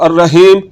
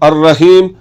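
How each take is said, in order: No difference in how they are said.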